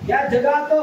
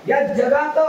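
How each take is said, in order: No difference in how they are said.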